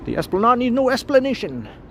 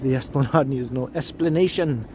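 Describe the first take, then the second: First: It is said in a put-on Spanish accent. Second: It is said in the speaker's ordinary accent.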